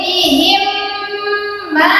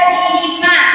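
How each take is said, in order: First: The m sound is held with a nasal hum. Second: The m sound is short, without a hum. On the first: The speaker calls it right. "ditahan sedikit" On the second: The speaker calls it wrong. "jangan dibaca bihimma"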